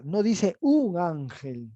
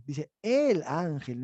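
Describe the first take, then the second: First: Slow, with "un" drawn out and weighted; stress on un. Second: Slow, with "el" weighted in "el ángel"; stress on el. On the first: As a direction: dwell on "un" as the reading to reject. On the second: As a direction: land on "el" as the correct reading. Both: Shown as a demonstration.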